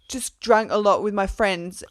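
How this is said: It is said in a put-on dumb man's voice.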